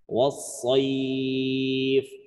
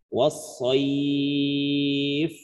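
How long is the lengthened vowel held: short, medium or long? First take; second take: long; medium. First: The long vowel is held for six counts. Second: The long vowel is held for four counts. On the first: "boleh enam harokat" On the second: "boleh empat"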